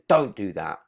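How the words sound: It is said in a harsh, aggressive tone. "that's got a much harsher and much more aggressive tone to it"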